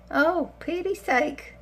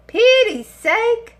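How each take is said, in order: First: Said in the usual way. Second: Slow, higher and louder, stretched out; drawn-out exasperation. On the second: Acted. To viewers about her greying hair, slow exasperated moan. Repeats exclamation, second drawn out.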